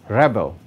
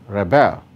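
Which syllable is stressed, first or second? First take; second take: first; second. First: The stress is on the first syllable. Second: The stress is on the second syllable. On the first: It is used as a noun. "nouns and adjectives are stressed on the first syllable" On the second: It is used as a verb. "verbs are stressed on the second syllable"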